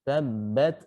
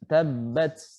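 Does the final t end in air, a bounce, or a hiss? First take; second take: air; hiss. First: The final t ends with a puff of air. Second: The final t ends with a hissing s sound. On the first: The speaker calls it right. "Contohnya yang benar" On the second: The speaker calls it wrong. "ini udah huruf sin"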